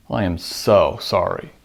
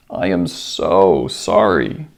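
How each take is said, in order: First: Low-pitched sarcasm with artificial emphasis on "so"; sarcastic. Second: Slow, low, drawn-out sorrowful apology; hammed-up pathos, stretching the words heavily; tearful pathos. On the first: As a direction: lean falsely on "so", eye-roll in the voice. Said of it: "sarcastically with artificial emphasis on the so". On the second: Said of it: "with tears and pathos". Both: Shown as a demonstration.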